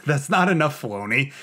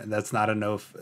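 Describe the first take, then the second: First: "not" pushed higher and louder with a laugh; emphatic protest. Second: Said in the usual way. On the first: Retold or imitated. Calls out to Filoni, laughing, stressing "not". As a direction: lean on "not" with a laughing, playful complaint.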